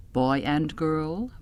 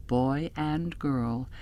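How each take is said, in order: Both takes have the same delivery.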